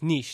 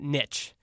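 First: The word is said with a French pronunciation. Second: The word is said with an English pronunciation. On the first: The speaker calls it right. "it's niche ... C'est français" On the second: The speaker calls it wrong. "not niche"

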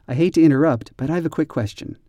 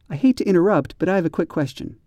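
No difference in how they are said.

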